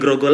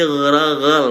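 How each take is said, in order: First: It starts with a plain hard g sound. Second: It starts with a thick, soft throaty gh sound. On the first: The speaker calls it wrong. "bukan grogol lagi" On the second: The speaker calls it right. "pakai gha gitu ya"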